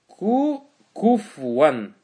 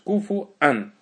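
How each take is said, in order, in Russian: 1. Гласные сливаются без гортанной остановки. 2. Перед 'ан' гортанная остановка разделяет гласный. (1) "А некоторые люди читают так" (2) "вау с хамзой, и потом ан идет"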